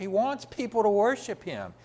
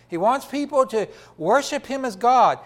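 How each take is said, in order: First: Said in the usual way. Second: "God" hit louder and higher at the end; preacher repeating the point, pressing on "God"; building to GOD. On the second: Shown as a demonstration. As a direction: raise the line and land hard on "God".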